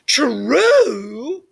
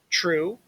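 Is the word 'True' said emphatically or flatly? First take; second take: emphatically; flatly. First: The word is said with strong, lively emphasis. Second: The word is said flatly, without extra emphasis. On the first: The speaker calls it right. "when we get the italics, we get so much more of a rich, real discussion" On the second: The speaker calls it wrong. "I could read it like this"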